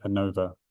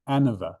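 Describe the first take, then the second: First: Anova with stress on the middle syllable, long O; own pronunciation. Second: Anova with stress on the first syllable, short vowel after; others' pronunciation. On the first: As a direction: say anova as uh-NO-vuh. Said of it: "I pronounce it anova". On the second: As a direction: say anova as AN-uh-vuh. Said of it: "some people will pronounce it". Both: Shown as a demonstration.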